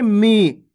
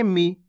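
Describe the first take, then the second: First: मी with a long, held ee; a lengthened, firmly voiced मी; drawn-out vowel. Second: मी cut short, no stretching; a short, lower मी; short vowel. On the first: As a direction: stretch मी out to show the long vowel. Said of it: "खींच के हो रहा है यहाँ पे". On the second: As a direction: say मी with a brief i. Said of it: "यहाँ पे छोटी ई की मात्रा है". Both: Shown as a demonstration.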